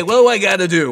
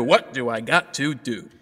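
First: Loud, high, casual demand; exasperated, raised voice. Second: Said in the usual way. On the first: Acted. Emperor sitting on his throne, loudly impatient.

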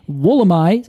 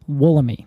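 First: "Wollemi" with final "my", left slightly rising; Australian pronunciation. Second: "Wollemi" ending in a long "ee"; non-Australian pronunciation. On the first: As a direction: say "Wollemi" so it ends in "eye". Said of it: "in Australia, they say". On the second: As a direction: say "Wollemi" with last syllable "mee". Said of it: "who's not, uh, an Australian". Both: Shown as a demonstration.

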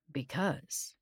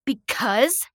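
First: Said in the usual way. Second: Loud, high, incredulous question; spat back. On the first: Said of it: "he simply said". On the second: A narrator's reading. Outraged victim echoing the being's answer, spitting it. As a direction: spit the word back as a question. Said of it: "I spat at him".

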